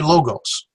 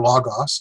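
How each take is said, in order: First: "Logos" with long o's, LOH-gohs; other company pronunciation. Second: "Logos" with open vowels, LAH-gahs; first company pronunciation. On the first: Someone else answering another day, "Logos" as LOH-gohs. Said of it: "someone else will answer and say". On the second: Software company answering one day, "Logos" as LAH-gahs. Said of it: "they'll answer". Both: Retold or imitated.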